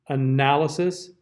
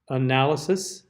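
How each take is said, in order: No difference in how they are said.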